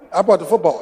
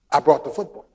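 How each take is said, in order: First: "brought" stressed with a falling tune, half laughing. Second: "brought" stressed with a rising tune. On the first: Preacher repeating his point, stress on brought. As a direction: land "brought" firmly, falling. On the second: Preacher recalling childhood football, stress on brought. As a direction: lean on "brought", lift it at the end. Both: Shown as a demonstration.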